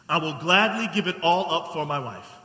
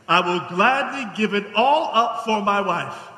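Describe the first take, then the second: First: The sentence is spoken quickly. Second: The sentence is spoken more slowly. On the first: The speaker calls it wrong. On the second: The speaker calls it right.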